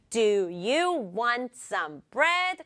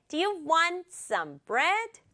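First: Every word from "Do" to "bread" equally weighted; even computer-like stress. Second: "want" and "bread" stressed in rhythm, rising at the end. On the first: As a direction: give each word the same slow beat. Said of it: "너무 컴퓨터 같아요". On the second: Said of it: "여기를 강조해주면 돼요". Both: Shown as a demonstration.

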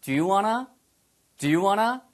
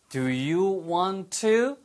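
First: Quick 'Do you wanna', want to merged, rising end; brisk, connected casual question; fast linked form. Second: Very slow, every word separate, rising end; unhurried teacher's model with 'want to' kept apart; slow, full form. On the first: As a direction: run 'want to' together as 'wanna'. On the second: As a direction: draw out each word of 'Do you want to'. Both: Shown as a demonstration. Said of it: "빨리 하면".

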